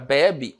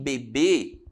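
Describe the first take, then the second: First: The stress is on the first syllable. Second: The stress is on the last syllable. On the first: "está na penúltima" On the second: "a sílaba tônica está na última sílaba"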